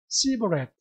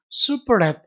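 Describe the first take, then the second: First: The word begins with an 's' sound. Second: The word begins with an 'sh' sound. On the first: "숲이라는 발음을 S 발음으로 발음을 했어요" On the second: "이게 조금 더 정확한 발음인데"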